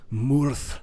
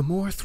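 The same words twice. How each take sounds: First: "Murth" said as one firm, louder word; corrected pronunciation. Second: Said in the usual way. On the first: Real, not acted. Player fixing the ruins' name, corrected pronunciation of "Murth". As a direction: give "Murth" its corrected vowel, set apart and emphatic. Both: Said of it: "I should say".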